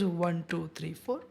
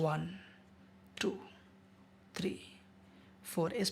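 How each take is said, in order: First: The counting is spoken at a fast speed. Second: The counting is spoken at a slow speed. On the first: "speed हो सकता है ज़्यादा तेज" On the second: "slow हो सकता है"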